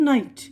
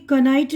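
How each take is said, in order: First: नाइट starting straight on N; correct silent K. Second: कनाइट with ka- before the N; silent K sounded. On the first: Teacher giving the right reading, नाइट with silent K. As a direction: say नाइट with no K sound. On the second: Teacher showing how not to read it, कनाइट with K sounded. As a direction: say knight wrongly as कनाइट. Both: Shown as a demonstration. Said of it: "कनाइट नहीं पढ़ रहे हम".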